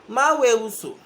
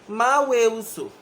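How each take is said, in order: No difference in how they are said.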